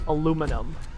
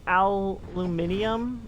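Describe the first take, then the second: First: The word is said as aluminum. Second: The word is said as aluminium.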